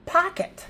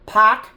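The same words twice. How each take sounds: First: High, smooth "Pocket" with a schwa; blended pocket. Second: Poc-ket split into two loud beats; loud "Poc-ket", a beat between the syllables. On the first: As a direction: blend "Pocket" into one word, ending pok-uht. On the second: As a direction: chop "Poc-ket" into two clear parts. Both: Shown as a demonstration.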